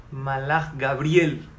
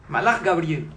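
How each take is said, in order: First: "Malach Gabriel" drawn out slowly and low; slow emphasis. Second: Said in the usual way. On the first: Shown as a demonstration. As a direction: stretch "Malach Gabriel" out, weighty. ("Malach Gabriel" lento y grave, enfatizado)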